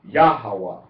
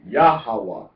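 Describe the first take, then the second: First: The stress is on the first syllable. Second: The same.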